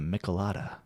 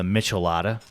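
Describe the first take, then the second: First: The first syllable does not sound like 'Michelin'. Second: The first syllable sounds like 'Michelin'. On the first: The speaker calls it right. "I think it's pronounced the Michelada" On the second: The speaker calls it wrong. "for some of you, the Michelada. I don't know why you would call it that way"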